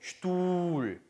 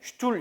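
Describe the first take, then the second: First: The u vowel is long. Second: The u vowel is short. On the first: The speaker calls it right. "우를 길게 해주셔야 되겠죠" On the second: The speaker calls it wrong. "이렇게 읽는 게 아니고"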